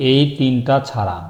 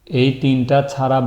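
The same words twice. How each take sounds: The two takes are said the same way.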